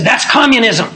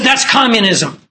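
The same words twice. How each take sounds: First: Sharp raised accusing snap; retold angry outburst. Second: Raised, insistent accusation; repeated angry outburst. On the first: Heckler in Bible study, a raised indignant accusation. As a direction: throw it back at him, indignant. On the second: Retold or imitated. Heckler repeating himself at the preacher, indignant. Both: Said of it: "practically frothing at the mouth".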